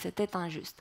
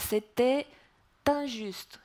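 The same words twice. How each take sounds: First: The words run together without a pause. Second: A pause falls between the two words. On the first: "Sinon, on dit" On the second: "si on a besoin de faire une pause"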